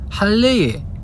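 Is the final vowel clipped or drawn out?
drawn out. The final vowel is drawn out in older dialect. This is how grandparents' generation talks. The speaker calls it wrong. "이런 거 안 씁니다"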